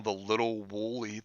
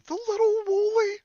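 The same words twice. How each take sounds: First: Said in the usual way. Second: Very high, loud squeaked question; incredulous. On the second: Real, not acted. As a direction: squeak it back in disbelief. Incredulous repeat of what was read.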